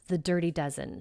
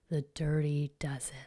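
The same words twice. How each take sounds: First: It is said in a plain, neutral way. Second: It is said in an ominous, scary way.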